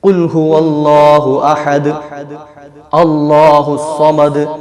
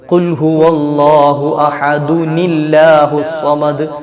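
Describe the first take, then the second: First: There is a pause after ahad before allahu. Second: Ahad joins allahu through an added n sound. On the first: "നിർത്തി നിർത്തി ഓതാം" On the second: "ഒരു നീ ചേർത്തിട്ട് വേണം ഓതേണ്ടത്"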